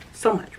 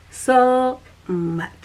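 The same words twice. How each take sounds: First: Said in the usual way. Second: Whispered so much. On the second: Shown as a demonstration. Speaker whispers her emphasis back to viewers. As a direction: hush it to a near-silent whisper.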